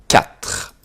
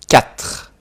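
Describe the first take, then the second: Both takes have the same delivery.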